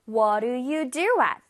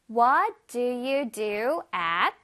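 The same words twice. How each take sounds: First: It is said a bit faster. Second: It is said at a normal pace.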